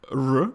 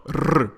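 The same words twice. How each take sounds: First: "R" smooth, with no roll; untrilled English R. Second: "R" as a long, loud trill; overdone rolled R. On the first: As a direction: say "R" the English way, tongue not vibrating. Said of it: "is not". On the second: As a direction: roll "R" hard and long. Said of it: "but it's not R". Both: Shown as a demonstration.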